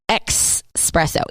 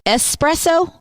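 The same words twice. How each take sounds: First: The word begins with a 'ks' sound. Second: The word begins with an 's' sound. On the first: "E X presso" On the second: "E S presso"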